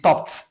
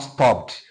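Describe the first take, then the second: First: The ending is pronounced as a t sound. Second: The ending is not pronounced as a t. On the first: The speaker calls it right. "it is stopped" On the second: The speaker calls it wrong. "not stopped"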